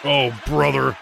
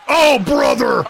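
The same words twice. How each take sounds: First: Said in the usual way. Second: High, loud yelled oh brother; loud shout. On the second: Real, not acted. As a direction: yell it out in shock. Reacting to chokeslam.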